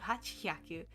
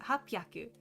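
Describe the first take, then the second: First: The middle of the word has an h sound. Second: The middle of the word has a p sound. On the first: The speaker calls it wrong. "instead of hachhyaku" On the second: The speaker calls it right. "it's hap- hapyaku"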